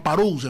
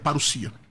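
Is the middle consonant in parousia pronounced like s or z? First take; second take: z; s. First: The middle consonant sounds like z. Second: The middle consonant sounds like s. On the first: The speaker calls it wrong. "As pessoas falam parousia" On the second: The speaker calls it right. "mas é parousia. ... nunca tem um som de Z"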